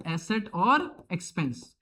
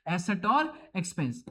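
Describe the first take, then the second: First: asset और expense drawn out slowly, each word clear; slow drilling repetition; slow repeat. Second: Said in the usual way. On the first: Shown as a demonstration. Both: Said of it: "प्यार से क्या बोलेंगे".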